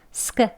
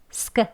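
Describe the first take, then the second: No difference in how they are said.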